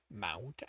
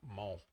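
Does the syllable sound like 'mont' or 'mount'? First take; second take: mount; mont. First: It rhymes with 'count', with an 'ow' vowel. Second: It has a short 'o' vowel, like 'mon'. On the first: The speaker calls it wrong. "I pronounce it the way I've always heard it said. Mount, as in a small mountain" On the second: The speaker calls it right. "It's Mont"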